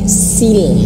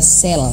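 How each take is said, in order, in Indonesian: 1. Vokal itu terdengar seperti i yang jelas. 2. Vokal itu terdengar seperti e terbuka. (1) "turun rahang bawahnya ini dagu kita" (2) "Jangan hanya sekedar sel"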